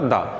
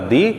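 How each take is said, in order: First: The word ends in a short 'uh' vowel. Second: The word ends in a long 'ee' vowel. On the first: The next word begins with a consonant sound. "Consonant sound आ रहा है तो वहां उच्चारण होगा दा" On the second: The next word begins with a vowel sound. "Vowel sound यदि आ रहा है तो वहां उच्चारण होगा दी"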